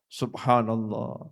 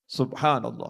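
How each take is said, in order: First: It is said slowly and deliberately. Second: It is said quickly but fully. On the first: The words are reflected on. "perlahan dihayati" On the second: The recitation is done quickly but completely. "Mau cepat ya enggak apa-apa, tapi selesai"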